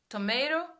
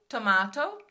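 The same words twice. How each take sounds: First: It is said with an American accent. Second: It is said with a British accent. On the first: "vai sair no americano... eu continuo falando tomato" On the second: "aqui eles falam tomato"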